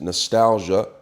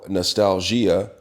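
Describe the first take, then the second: First: It is said with a plain English accent. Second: It is said with a French accent.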